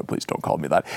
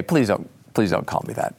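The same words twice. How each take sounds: First: Very deep, soft voice; Dick Cheney. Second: Low, subdued objection; Dick Cheney. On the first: Cheney objects to being called Dick, very deep voice. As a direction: sink to the bottom of your range, quietly. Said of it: "in a very deep voice like this". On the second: Cheney answers the time traveler's greeting, lowered voice. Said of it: "He'd say it in a very deep voice". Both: Acted.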